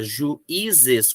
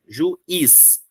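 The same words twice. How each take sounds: First: "juízes" in three beats, ju, í, zes; "juízes" split with z starting the last syllable; syllable division. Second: "juiz" in two beats, ju and iz; "juiz" split after ju, stress on iz; syllable division. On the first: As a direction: leave the í alone in "juízes". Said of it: "esse i ficou sozinho". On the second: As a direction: keep i joined to z in "juiz". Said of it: "o i se grudou com o z". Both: Shown as a demonstration.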